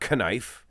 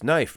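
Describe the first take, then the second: First: The word begins with a sounded K. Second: The word begins with an N sound. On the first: The speaker calls it wrong. "not knife" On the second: The speaker calls it right. "It's knife"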